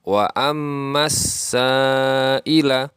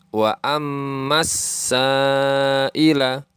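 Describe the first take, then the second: First: The L is silent and the S is doubled. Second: The L is silent and the S is doubled.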